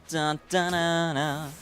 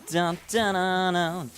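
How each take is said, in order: No difference in how they are said.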